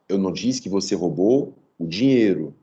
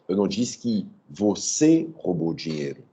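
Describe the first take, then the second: First: The stress falls on the word dinheiro. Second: The stress falls on the word você. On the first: The doubt is about what was stolen. "Roubou o quê?" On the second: The doubt is about who stole it. "Quem roubou?"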